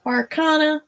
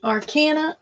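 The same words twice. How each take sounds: First: Arcana with a broad ah as in father; arcana, middle vowel ah; broad ah pronunciation. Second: Arcana with a flat a as in cat; arcana, middle a like cat; short a pronunciation. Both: Shown as a demonstration. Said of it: "How do we pronounce that?".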